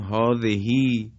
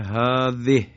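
First: The final h carries a long drawn-out vowel. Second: The word stops on a bare final h. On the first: "به اشباع خونده میشه" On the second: "وقف کنیم ساکن میشه"

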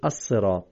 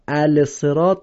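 First: The L merges into the doubled consonant. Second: The L of the article is pronounced. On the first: The speaker calls it right. "میگیم الصراط" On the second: The speaker calls it wrong. "ال صراط نمیگیم"

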